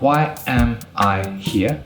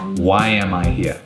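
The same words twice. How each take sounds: First: Each word is said separately, without linking. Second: The words run together with glides between them. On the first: The speaker calls it wrong. "Not why am I here? ... It's not smooth, it's not natural" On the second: The speaker calls it right. "That is how a native speaker would say it"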